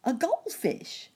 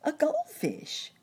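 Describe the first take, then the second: First: High quick cricket answer; chirping cricket voice. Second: High, slow cricket repeat; drawn-out chirpy answer; chirping cricket voice. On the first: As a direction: chirp it out fast. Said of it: "said the cricket quickly". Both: Acted.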